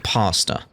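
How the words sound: It is said with an American accent.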